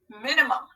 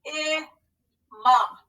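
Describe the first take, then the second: First: Said in the usual way. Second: Slow, syllable by syllable; scooping the word in parts; scooped syllables. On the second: Shown as a demonstration. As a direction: sound out each syllable slowly. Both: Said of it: "So let's scoop and read".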